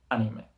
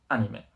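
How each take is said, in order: The two takes are said the same way.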